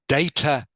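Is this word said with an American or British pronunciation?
British. The word is said with a British pronunciation. "is what people, British people will say"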